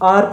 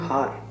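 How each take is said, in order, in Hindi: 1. शब्द की शुरुआत स्वर ध्वनि से होती है। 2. शब्द की शुरुआत h ध्वनि से होती है। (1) "वो आर प्रोनाउंस होता है, हार प्रोनाउंस नहीं होता" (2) "अब अगर अगर आप इसको कहोगे हार"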